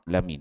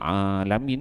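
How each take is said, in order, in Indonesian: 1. Konsonan tenggorokan itu tertutup tanpa vokal. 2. Konsonan tenggorokan itu diikuti vokal. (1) "Tapi dia sukunkan pada ham Hamzah Alamin" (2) "Sepatutnya Alamin kan"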